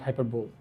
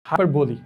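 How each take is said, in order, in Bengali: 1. এই শব্দটি 'bowl' ধ্বনি দিয়ে শেষ হয়। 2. এই শব্দটি 'lee' ধ্বনি দিয়ে শেষ হয়। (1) "আমি যদি বেঙ্গলি অ্যাকসেন্টে বলি তাহলে এটা হবে হচ্ছে হাইপার বোল" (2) "হাইপার বলি, নট হাইপার বোল"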